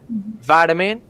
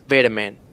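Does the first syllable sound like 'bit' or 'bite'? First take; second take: bite; bit. First: The first syllable rhymes with 'bite'. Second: The first syllable rhymes with 'bit'. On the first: "U S variant" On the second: "the U K variant is vitamin"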